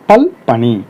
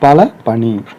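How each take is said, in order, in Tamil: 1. முதல் சொல் l இல் முடியும், இறுதியில் உயிர் இல்லை. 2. முதல் சொல் இறுதியில் 'a' உயிரோடு முடியும். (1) "அகரம் கெட்டுடும்" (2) "அகரம் கெடாம"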